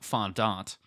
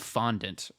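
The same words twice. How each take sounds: First: It is pronounced the fancy, posh way. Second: It is pronounced the plain, everyday way.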